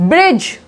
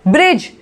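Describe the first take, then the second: The two takes are said the same way.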